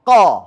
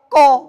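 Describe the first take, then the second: First: The vowel is a thick, unrounded dark a. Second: The vowel is a rounded o sound. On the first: The speaker calls it right. "Fathah yang ditebalkan bunyinya ko" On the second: The speaker calls it wrong. "Kalau pakai o"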